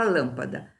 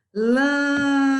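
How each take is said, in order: First: Said in the usual way. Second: "Lâmpada" with a loud, high, held "Lâm"; stressed syllable drawn out. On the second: Shown as a demonstration. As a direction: hold the first syllable of "Lâmpada" long and high. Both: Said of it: "A sílaba tônica não foi a última".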